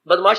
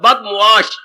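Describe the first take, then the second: First: It is said in two syllables, bad-mash. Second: It is said in three syllables, bad-mu-ash. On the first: The speaker calls it wrong. "बदमाश शब्द नहीं होता" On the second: The speaker calls it right.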